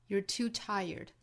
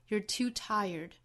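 No difference in how they are said.

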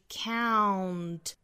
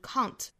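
First: The vowel glides from an open ah to oo. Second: The vowel is a Chinese-like sound without a glide. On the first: The speaker calls it right. "由两个元音构成" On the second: The speaker calls it wrong. "会发成 count"

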